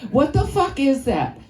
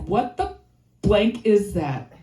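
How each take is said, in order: First: Put-on uncensored kid gripe. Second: Put-on censored kid gripe. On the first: Kid opening her lunch, saying fuck outright. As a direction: say fuck and mean it a little. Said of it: "Or I can say fuck, can't I?". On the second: Kid opening her lunch, mildly grossed out. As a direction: swap in blank, mildly grossed out. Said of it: "I'm like".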